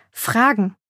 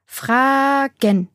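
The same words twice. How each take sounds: First: Said in the usual way. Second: "Fragen" stretched out, higher, syllable by syllable; precise emphasis. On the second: A narrator's reading. Maya teaching the boy, "Fragen" in drawn-out, separated syllables. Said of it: "das Wort genau betonend".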